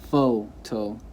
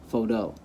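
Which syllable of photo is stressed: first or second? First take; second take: first; second. First: The stress is on the first syllable. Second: The stress is on the second syllable. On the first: The speaker calls it right. "the correct way" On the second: The speaker calls it wrong. "Obviously, you would never say photo"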